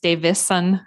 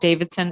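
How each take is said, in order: First: No d sound comes before the s. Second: A d sound comes before the s. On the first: The speaker calls it right. "There's no D in it" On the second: The speaker calls it wrong. "It's not Davidson"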